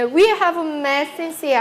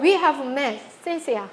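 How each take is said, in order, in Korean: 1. 중간에 쉬지 않고 쭉 이어집니다. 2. 마지막 이름 앞에 멈춤이 있습니다.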